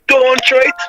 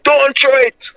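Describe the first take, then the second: First: Pitched-up retold plea, lightly voiced; mild imitation of Emmanuel's cry, higher. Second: Mild high-pitched retold plea; lightly voiced pleading warning, pitched up; a hint of Emmanuel begging them not to throw the stone, higher; Emmanuel's plea. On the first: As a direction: echo the warning higher, a touch of pleading. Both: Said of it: "all you could hear is Emmanuel voice saying".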